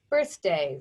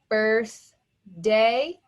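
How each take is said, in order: First: Said in the usual way. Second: "Birthday" as birth, pause, day; slow, separated beats on "Birthday"; split by syllable. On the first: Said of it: "The word is birthday". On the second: Shown as a demonstration. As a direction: say "Birthday" one syllable at a time. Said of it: "First syllable".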